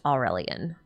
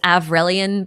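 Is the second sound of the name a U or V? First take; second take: U; V. First: The name is said with a U sound. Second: The name is said with a V sound. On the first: The speaker calls it right. "I think it's uh meant to be pronounced Aurelian" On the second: The speaker calls it wrong. "They spell it with a V instead of a U though, so it's Avrelian"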